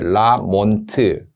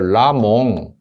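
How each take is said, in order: First: It ends in an n followed by a t. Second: It ends in a nasal, with no final t. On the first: "영어식 발음으로 몬트 이렇게 라몬트" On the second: "라몽트를 묵음으로 해서 라몽 이렇게"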